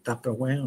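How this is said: It is said with an English pronunciation. "en fait des Tupperware en anglais"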